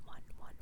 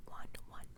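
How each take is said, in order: Both takes have the same delivery.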